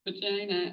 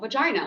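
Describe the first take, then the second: First: It is said in a squeamish, embarrassed way. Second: It is said in a plain, matter-of-fact way. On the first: The topic feels uncomfortable or shameful. The speaker calls it wrong. "I often get people be like" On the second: It is just a normal clinical term. The speaker calls it right. "And I'm like, no"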